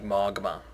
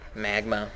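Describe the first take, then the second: First: The first vowel sounds like the 'o' in hot. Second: The first vowel sounds like the 'a' in cat. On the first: Someone else said it this odd way. The speaker calls it wrong. "he said you pronounced magma like magma" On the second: This is how everybody says it. The speaker calls it right. "Just magma. That's what everybody says"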